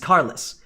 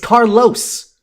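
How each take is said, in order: First: The second syllable sounds like 'less'. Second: The second syllable sounds like 'los'. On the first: The man has no car. The speaker calls it wrong. "You're supposed to say it like carless, like he has no car" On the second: It is simply the man's name. The speaker calls it right. "You clearly say los"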